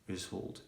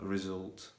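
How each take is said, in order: First: The middle s is a hissing s sound. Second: The middle s is a buzzing z sound. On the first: The speaker calls it wrong. "I was saying result instead of" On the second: The speaker calls it right. "which is the the correct way of saying it"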